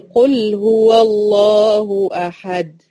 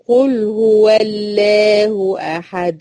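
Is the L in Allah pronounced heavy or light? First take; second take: heavy; light. First: The L in Allah is heavy and full. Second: The L in Allah is light and thin. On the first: The speaker calls it right. "يبقى اللام لفظ الجلالة هنا إيه؟ هتفخم" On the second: The speaker calls it wrong. "تخيلي كده بقول قل هو الله أحد، هتستغربي جدا،"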